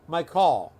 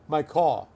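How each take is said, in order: Both takes have the same delivery.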